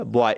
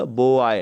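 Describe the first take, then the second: First: Said in the usual way. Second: बॉय pulled apart into two beats, बो and आय; wrongly split. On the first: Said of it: "एक ही बार में बोला जाएगा". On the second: Shown as a demonstration. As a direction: say बॉय slowly as two pieces, बो-आय. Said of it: "नहीं बोल सकते".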